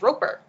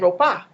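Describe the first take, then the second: First: The final ER ends with a clear R sound. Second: The final ER is said without an R sound. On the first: This is the real form of the name. "my last name is Roper" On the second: This is how Japanese speakers say the name. "They would say Ropa"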